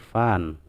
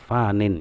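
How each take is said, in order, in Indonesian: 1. Kata itu berhenti setelah n. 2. Kata itu berakhir dengan suku kata -in tambahan. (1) "diberhentikan bacaannya jadi dibacanya adalah fan" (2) "Sebenarnya itu fanin"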